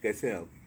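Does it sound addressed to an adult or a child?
adult. It is said formally, as to an adult.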